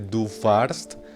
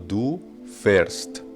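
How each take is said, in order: First: The verb's vowel is a plain 'ah' sound. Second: The verb's vowel is an umlaut 'eh' sound. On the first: The speaker calls it wrong. "no se dice" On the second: The speaker calls it right. "esa A se cambiaba por la A con umlaut"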